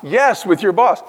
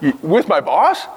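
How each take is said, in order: First: Slow, deliberate answer with YES stressed; firm yes. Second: Slow, incredulous question rising on boss; mock disbelief. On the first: Real, not acted. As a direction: lean on "Yes" and say it plainly and firmly. Answering the imagined listener firmly. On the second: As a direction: ask it as if the idea is absurd. Voicing a listener's incredulous reply.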